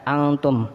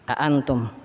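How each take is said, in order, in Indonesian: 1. Hamzah yang kedua dihilangkan, seolah tidak ada. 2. Kedua hamzah diucapkan dengan tegas dan jelas. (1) "seakan-akan hamzah yang kedua ini tidak ada" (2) "dibaca dengan tegas dua hamzahnya"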